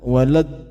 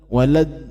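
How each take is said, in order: First: The final d vibrates slightly in the throat. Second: The final d vibrates slightly in the throat.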